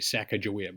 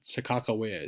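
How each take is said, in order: First: The third syllable starts with a g sound. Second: The third syllable starts with a k sound. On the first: This is the older, familiar way of saying it. "We used to call her when I was growing up, we would say" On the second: This is how people say it today. "seems to be the way people pronounce it now"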